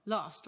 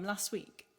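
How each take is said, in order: First: "last" with a long southern A. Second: "last" with a short A; short northern A. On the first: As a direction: say "last" as "lahst". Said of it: "how do you say the word L A S T". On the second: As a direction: say "last" with the flat A of "cat". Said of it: "You are making me change my accent". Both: Retold or imitated.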